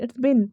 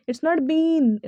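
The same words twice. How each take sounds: First: 'been' pronounced as a short bin; short-vowel BIN. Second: 'been' with a long, stretched ee; long-vowel BEEN. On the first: Teacher correcting the reading for students, 'been' as short bin. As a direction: cut 'been' down to 'bin'. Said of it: "इसका pronunciation बिन होता है". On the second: Teacher rejecting this reading for students, long ee in 'been'. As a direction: draw out the ee in 'been'. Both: Shown as a demonstration.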